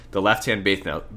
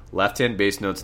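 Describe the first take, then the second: First: "bass" comes out as "bath", the s lisped into th; accidental lisp. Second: Said in the usual way. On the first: Real, not acted. Sick piano teacher explaining bass notes, "bass" lisped into "bath". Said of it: "I have a lisp going". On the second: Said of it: "I need to slow down here".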